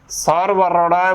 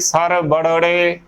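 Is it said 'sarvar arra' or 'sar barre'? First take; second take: sarvar arra; sar barre. First: It is said as 'sarvar arra'. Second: It is said as 'sar barre'. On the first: The speaker calls it right. "ਸਰਵਰ ਅੜਾ ਬੋਲਣਾ ਹੈ" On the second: The speaker calls it wrong. "ਨਾ ਕਿ ਸਰ ਬੜੜੇ, ਗਲਤ ਉਚਾਰਨ ਹੋਵੇਗਾ"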